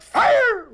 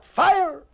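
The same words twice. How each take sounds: First: Much higher, louder yell of Fire!; hollered command. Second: Mild mock holler. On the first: Retold or imitated. Sergeant on the firing range, a much higher, louder yell. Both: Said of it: "The sergeant hollered".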